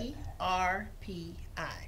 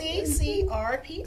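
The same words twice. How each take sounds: First: The letters are said slowly. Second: The letters are said at normal speed.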